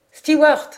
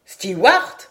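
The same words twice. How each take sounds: First: Loud, higher-pitched call for the steward. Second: Loud call with a rising end; louder call. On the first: Stranger hailing the steward on deck, calling out. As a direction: call sharply across the deck for service. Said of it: "cria-t-il avec un accent qui dénotait un étranger". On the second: Stranger repeating his hail to the steward, louder call. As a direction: call out loudly, lifting the last syllable. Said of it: "répéta-t-il d'une voix plus forte". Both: A narrator's reading.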